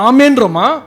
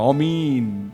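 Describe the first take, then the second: First: The second vowel is a short 'e'. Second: The second vowel is a long 'ee'. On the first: The way the congregation here says it. "நம்ம ஆமேன்றோமா" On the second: The way Muslims say it. "பாயெல்லாம் அப்படிதான் சொல்லுவாங்க"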